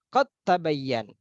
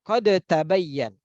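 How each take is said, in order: First: The d merges straight into the following t. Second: The d is released with a bouncing echo. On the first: The speaker calls it right. "Lebih mudah" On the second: The speaker calls it wrong. "seandainya kita tetap ya bacanya seperti qalqalah"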